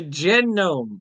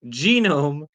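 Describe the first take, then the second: First: Genome said "JEN-nome"; mimicked mispronunciation. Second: Genome said "JEE-nome"; usual pronunciation. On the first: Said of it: "So why did he say". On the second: Shown as a demonstration. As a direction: say genome with a long ee, like gene. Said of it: "That's what the word".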